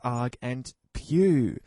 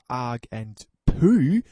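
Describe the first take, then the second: First: The last word sounds like pew. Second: The last word sounds like poo. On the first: The speaker calls it right. "It's arg and pew" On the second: The speaker calls it wrong. "It's not arg and poo"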